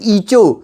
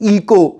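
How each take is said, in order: First: It starts with 'ee' and has a 'ch' sound. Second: It starts with 'ee' and has a 'k' sound. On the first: "कुछ कहते हैं ईचो" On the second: "ज्यादा students क्या कहेंगे? इको"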